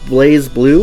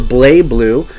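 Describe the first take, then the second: First: The first syllable ends with a z sound. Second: The first syllable ends without a z sound.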